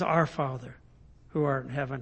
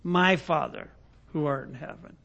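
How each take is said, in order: First: \"Our\" leaned on, whole phrase soft and low; stress on Our. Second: \"My\" leaned on, then trailing off softer; stress on My. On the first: Preacher correcting to Jesus' prayer opening, stressing Our. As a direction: hit \"Our\" as the right version. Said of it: "but he says". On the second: Preacher showing the wrong prayer opening, stressing My. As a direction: hit \"My\" as the wrong version. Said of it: "He doesn't say". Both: Shown as a demonstration.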